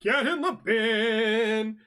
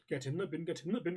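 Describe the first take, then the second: First: High, loud, very slow catchphrase yell; big hammed-up holler; drawn-out yell. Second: Softer, quicker catchphrase repeat; toned-down, run-together chant; muted repeat. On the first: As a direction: stretch it out like a show catchphrase. Performed catchphrase, drawn out loudly. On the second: Pretend. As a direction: rattle it off under the big yell.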